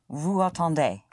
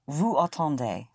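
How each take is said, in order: No difference in how they are said.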